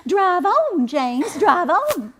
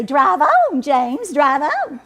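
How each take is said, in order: First: High, haughty command to the driver; haughty lady. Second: Mimicking the haughty lady. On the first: Retold or imitated. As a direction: look down your nose and order him on. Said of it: "in her most haughty voice". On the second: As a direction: ham up the snooty lady, laughing. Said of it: "He'll mimic that lady and say".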